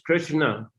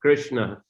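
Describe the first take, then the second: No difference in how they are said.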